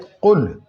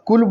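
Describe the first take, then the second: First: The first consonant is a deep throat q. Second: The first consonant is a plain front k. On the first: The speaker calls it right. "ये है कुल" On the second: The speaker calls it wrong. "अगर आप कुल बोल देंगे तो ये गलत हो जाएगा"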